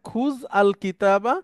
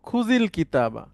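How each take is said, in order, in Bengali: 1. শব্দগুলো আলাদা করে বলা হয়, কোনো সংযোগী স্বরধ্বনি ছাড়াই। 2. শব্দগুলো একটি ছোট সংযোগী i দিয়ে জোড়া দেওয়া হয়। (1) "এখানে দেখেন খুজ আল কিতাবা" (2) "একসাথে আমরা পড়বো খুজিল কিতাবা"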